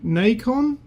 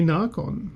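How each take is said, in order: First: The first vowel sounds like 'ay'. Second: The first vowel sounds like 'ah'. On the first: "I reckon that needs a Y" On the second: "the Australian way to, to pronounce it"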